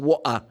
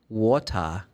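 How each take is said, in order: First: It is said in a Cockney accent. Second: It is said in a standard British accent.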